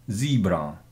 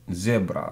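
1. Слово произносится с американским акцентом. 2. Слово произносится с британским акцентом. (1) "Это у нас американский вариант" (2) "британский вариант"

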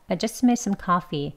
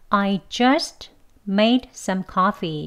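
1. 단어들이 매우 짧게 끊기며 빠르게 이어집니다. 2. 각 단어를 따로, 또렷하게 발음합니다. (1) "발음을 빨리 해도" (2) "그대로 각각 단어를 발음하면"

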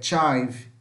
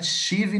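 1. A vogal soa como 'eye'. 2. A vogal soa como 'ee'. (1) "não vai ser som de i, mas de ai" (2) "Não é chive"

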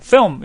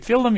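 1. 미국식으로 발음해요. L 소리가 약해요. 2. 한국식으로 발음해요. L 소리가 또렷해요. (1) "film 이러잖아요" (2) "미국 사람들이 필름 이렇게 안 하잖아요"

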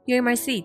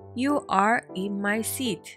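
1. 'you are' は 'you're' と短縮して言います。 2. 'you are' はそのまま言います。

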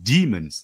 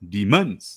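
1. การเน้นเสียงอยู่ที่พยางค์แรก 2. การเน้นเสียงอยู่ที่พยางค์ที่สอง (1) "ที่มันเป็น" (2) "ที่มันไม่ใช่"

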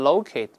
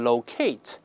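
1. 这是美式发音。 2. 这是英式发音。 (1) "在美式可以读成locate" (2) "英国人可以读成locate"

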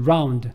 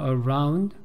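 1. 첫 모음 소리는 생략됩니다. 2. 첫 모음 소리가 분명히 발음됩니다. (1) "앞에 있는 어는 거의 소리가 안 나는 거죠" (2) "근데 사실 around라고 읽지 않는다 하더라고요"

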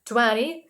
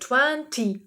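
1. Це сказано з американським акцентом. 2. Це сказано з британським акцентом. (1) "це також правильна вимова, але це американська вимова" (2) "в британській вимові слово 20 читається як 20"

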